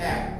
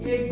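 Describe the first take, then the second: First: The first vowel is an open 'a' as in cat. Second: The first vowel is a plain mid 'e'. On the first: The speaker calls it right. "আমরা বলি এক" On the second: The speaker calls it wrong. "আমরা কিন্তু এক বলি না"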